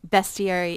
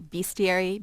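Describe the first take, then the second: First: The first syllable sounds like the word best. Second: The first syllable sounds like the word beast. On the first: "is also fine" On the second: "it includes the word beast"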